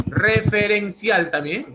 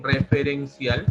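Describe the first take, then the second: First: Referencial said high, loud and slow; emphatic term. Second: Said in the usual way. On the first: Shown as a demonstration. Teacher stressing the answer during revision, emphatic. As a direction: lift Referencial up for the class. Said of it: "teacher stressing the answer".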